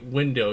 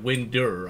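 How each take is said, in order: First: It ends in a plain vowel, no R. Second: It ends with an added R sound. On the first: "you wouldn't have, say" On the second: "a proper Texan pronunciation will have random R's in it"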